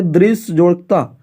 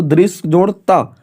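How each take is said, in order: First: Said in the usual way. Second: Each part said slowly and deliberately; slow, spelled out. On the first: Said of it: "आगे लिखा है". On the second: Shown as a demonstration. Teacher slowly repeating the example for the class. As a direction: read it out slowly so students can follow. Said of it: "तो दृश्य जोड़ त".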